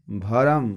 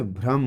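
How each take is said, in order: First: भरम in two beats, "bha-ram"; split bhr cluster. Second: Said in the usual way. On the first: Shown as a demonstration. Teacher showing the incorrect form, भरम said as "bha-ram". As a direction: put a vowel after bh in भरम. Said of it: "ये अशुद्ध है". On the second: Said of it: "भ्रम होता है".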